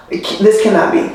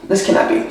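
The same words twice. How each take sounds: First: Said in the usual way. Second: This cannot be, whispered, no voice; whispered repeat. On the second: Shown as a demonstration. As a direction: breathe This cannot be to yourself.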